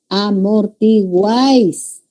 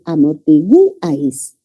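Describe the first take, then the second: First: Amortiguáis slowly, guáis held as one syllable; tonic syllable guáis. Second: Amortiguáis broken as a-mor-ti-GÚ-ais; stress on U. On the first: Teacher modelling for students, amortiguáis slow with one long guáis. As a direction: draw out amortiguáis, uai gliding together. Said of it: "La sílaba tónica es guáis". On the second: Teacher showing a word that does not exist, amor-ti-GÚ-ais. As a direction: hit the u of amortiguáis and detach ais. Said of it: "colocarle la tilde sobre la U". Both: Shown as a demonstration.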